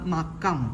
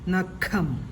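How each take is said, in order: First: The middle consonant is a plain k sound. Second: The middle consonant is a breathy kh sound. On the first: The speaker calls it wrong. "ഈ കായാണ് ഉച്ചരിക്കുന്നതെങ്കിൽ എങ്ങനെയാണ് ഉച്ചരിക്കുക?" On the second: The speaker calls it right. "ഇവിടെ ക എന്നല്ല ഉച്ചരിക്കേണ്ടത്, ഖയാണ്"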